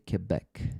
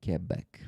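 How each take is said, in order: First: It is said the way Canadians say it. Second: It is said the way Canadians say it.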